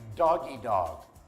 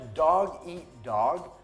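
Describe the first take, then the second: First: The middle sounds like the word 'doggy'. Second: The middle sounds like the word 'eat'. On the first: The speaker calls it wrong. "is mispronounced as doggy dog" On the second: The speaker calls it right. "The expression dog eat dog"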